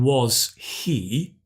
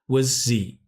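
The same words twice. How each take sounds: First: Both words are said fully and separately. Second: The words are reduced and run together. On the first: "So instead of saying was he" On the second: "we contract the was"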